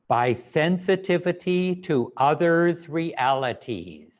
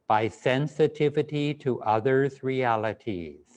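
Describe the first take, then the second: First: It is said loudly with strong energy. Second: It is said in a softer, quieter voice. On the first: "With lots of energy, in a loud voice, with conviction" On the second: "in a quieter voice"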